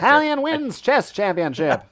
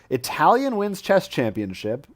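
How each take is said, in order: First: It is read in an old-time newscaster voice. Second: It is read in a plain, ordinary voice.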